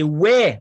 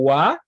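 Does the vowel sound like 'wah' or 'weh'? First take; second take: weh; wah. First: The sound is said like 'weh'. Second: The sound is said like 'wah'. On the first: This is the older pronunciation still heard in Acadian French. "le O I qui était prononcé ouais" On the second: This is the pronunciation adopted after the French Revolution. "lors de la Révolution française, est passé au wa"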